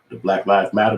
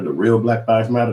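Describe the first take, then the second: First: Said in the usual way. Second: Real punched harder than the rest of the phrase; stress on real. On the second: Real, not acted. Correcting himself about the protesters, leaning on real. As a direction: lean on the word real to correct yourself.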